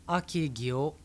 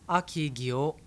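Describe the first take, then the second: Both takes have the same delivery.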